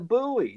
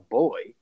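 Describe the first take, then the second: First: The word sounds like 'boo-ee', two syllables. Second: The word sounds like 'boy', one syllable. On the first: The speaker calls it right. "there are letters that you aren't using when you pronounce that word" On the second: The speaker calls it wrong. "You're just saying it wrong. It's not a boy"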